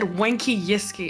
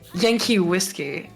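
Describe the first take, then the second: First: The first sounds of the two words are swapped. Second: Each word begins with its normal first sound. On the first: The speaker calls it wrong. "I just said wanky yiski instead of" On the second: The speaker calls it right. "instead of Yankee whiskey"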